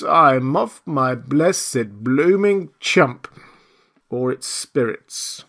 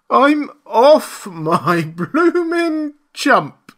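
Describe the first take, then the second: First: Slow, drawn-out moan; woeful lament. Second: High, loud, long-drawn wail; despairing wail. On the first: Marvel blaming drink or spirits, woeful moan. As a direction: groan it out word by word, less shrieked. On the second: Marvel shaken by the collar, despairing wail. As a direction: wail it out word by word, pitched high. Marvel fears he has gone mad. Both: A narrator's reading.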